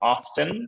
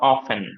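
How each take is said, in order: First: The t sound in the middle is pronounced. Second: The t sound in the middle is silent. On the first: "এটা দুইটা উচ্চারণই correct" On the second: "এটা দুইটা উচ্চারণই correct"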